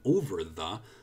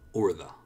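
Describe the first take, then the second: First: Both words are pronounced fully and separately. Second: The words are reduced and blended into one. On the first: "Instead of saying over the" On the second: "Really soft ending of that blending into the"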